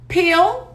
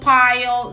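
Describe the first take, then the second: First: The vowel is a short 'i' sound. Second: The vowel sounds like the word 'eye'. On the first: The speaker calls it right. "Eles pronunciam I" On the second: The speaker calls it wrong. "não vai ser hile, pile, não"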